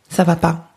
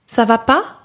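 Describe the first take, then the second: First: It falls like a plain statement. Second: It rises like a question at the end.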